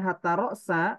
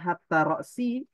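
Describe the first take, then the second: First: The second word ends with an a vowel. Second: The second word ends with an i vowel. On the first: Hatta works as a conjunction. "berarti hatta ini huruf atau" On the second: Hatta works as a preposition. "berarti hatta ini huruf jar"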